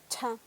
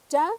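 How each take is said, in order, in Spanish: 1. El sonido ch tiene un soplo de aire fuerte. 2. El sonido ch no tiene soplo de aire. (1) "la cha aspirada, entonces va a sonar cha" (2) "tenemos cha"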